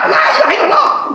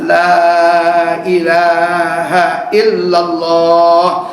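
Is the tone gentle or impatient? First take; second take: impatient; gentle. First: It is said harshly and impatiently. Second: It is said slowly and gently.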